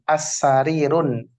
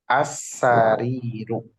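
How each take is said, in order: First: The word ends with an added n sound. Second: The word ends on a plain vowel. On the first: The speaker calls it wrong. "Betul apa salah? ... Salah" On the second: The speaker calls it right. "Jadi dibacanya as-sariru"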